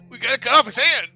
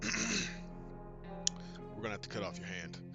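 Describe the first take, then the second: First: It is said in an openly excited way. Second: It is said in a restrained, calm way.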